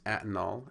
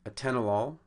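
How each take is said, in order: First: The stress is on the first syllable. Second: The stress is on the second syllable. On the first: The speaker calls it wrong. "to the first" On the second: The speaker calls it right. "the accent has changed from the second syllable"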